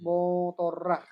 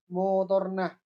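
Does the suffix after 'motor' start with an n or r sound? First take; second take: r; n. First: The suffix repeats the final r sound. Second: The suffix starts with an n sound. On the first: This is how the local dialect forms it. "kalau sini kan" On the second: This is how the other island's dialect forms it. "kalau sana nah semua"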